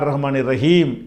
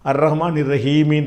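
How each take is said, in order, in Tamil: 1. கடைசி வார்த்தை வெறும் மெய்யில் முடியுது. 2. கடைசி வார்த்தை ஒரு உயிர் ஓசை சேர்ந்து முடியுது. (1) "மூச்சு விட்டோம் என்று சொன்னால் எப்படி படிக்கணும்" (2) "இருந்தால்"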